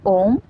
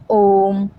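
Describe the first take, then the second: First: ओम with its vowel held a bit long; lengthened Om. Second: ओम held long on the vowel, a pluta demo; drawn-out Om. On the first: Teacher repeats the pluta example: ओम stretched, slightly slow. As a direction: draw out the ओम a little. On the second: Teacher shows students the long pluta vowel: ओम drawn out very slowly. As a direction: stretch the ओम slowly past two beats. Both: Shown as a demonstration. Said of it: "इसमें ये ज़्यादा लंबा खिंचता है".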